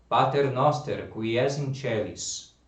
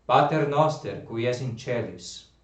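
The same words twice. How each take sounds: The two takes are said the same way.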